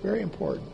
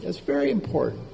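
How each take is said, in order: First: Repeated much softer, almost to himself; soft echo. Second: Said in the usual way. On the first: Real, not acted. Preacher repeating his point to the congregation, softly. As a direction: drop the voice and echo it quietly.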